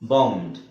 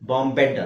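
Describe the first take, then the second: First: The ending is a plain d sound. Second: The ending is said as an extra syllable. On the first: The speaker calls it right. "ಇನೂ ಉಚ್ಚಾರಣೆ ಮಾಡೋಗಿಲ್ಲ" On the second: The speaker calls it wrong. "ಬಾಂಬೆಡ್ ಅಲ್ಲ"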